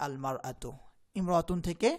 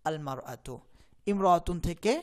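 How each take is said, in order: The two takes are said the same way.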